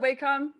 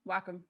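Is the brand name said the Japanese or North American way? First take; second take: North American; Japanese. First: It is pronounced the common North American way. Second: It is pronounced the original Japanese way. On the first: The speaker calls it wrong. "everyone pronounces it Wacom" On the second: The speaker calls it right. "it's Japanese"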